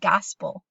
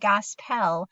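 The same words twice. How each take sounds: First: The second syllable has a weak, smushed vowel. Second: The second syllable has a full, clear vowel. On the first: The speaker calls it right. "that E kind of gets smushed, kind of loses its full sound" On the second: The speaker calls it wrong. "So it's not gospel"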